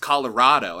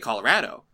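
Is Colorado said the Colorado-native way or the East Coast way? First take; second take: East Coast; Colorado-native. First: Colorado is said the way East Coast kids say it. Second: Colorado is said the way Colorado natives say it. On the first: Outsiders insist on their own version. The speaker calls it wrong. "why are you saying it like that? It's Colorado" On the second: The speaker is from there. The speaker calls it right. "I'd say Colorado"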